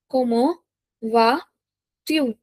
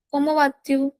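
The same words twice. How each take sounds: First: Slow "Comment vas-tu" with long gaps; piece-by-piece teaching of "Comment vas-tu"; word by word. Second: Said in the usual way. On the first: Shown as a demonstration. Teacher dictates phrase in pieces.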